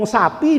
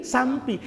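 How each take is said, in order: First: Said in the usual way. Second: "sampi" with an M before the P; "sam-pi" with a nasal M; M slipped in. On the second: Shown as a demonstration. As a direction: say "sampi" in place of sapi. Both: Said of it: "untuk ngomong sapi dari sampi".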